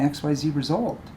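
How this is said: The phrase is said in a positive tone. The speaker calls it right. "X Y Z result sounds positive. See, I shifted my tone"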